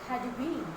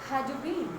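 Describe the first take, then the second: Both takes have the same delivery.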